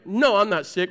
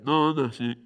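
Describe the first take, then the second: First: Said in the usual way. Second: Low, mumbled, half-swallowed denial; a low sickly grumble of no I'm not sick; weak sick mumble. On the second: Shown as a demonstration. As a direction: mumble it like a sick man insisting he's fine. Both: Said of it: "Or it sounds like this mostly".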